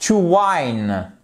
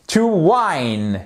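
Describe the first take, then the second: First: To whine with ai; long i. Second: To whine, clear ai; long i. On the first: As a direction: glide the i in whine. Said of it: "E muet, consonne I". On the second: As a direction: repeat whine with the diphthong. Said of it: "pour voir si vous suiviez". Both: Shown as a demonstration.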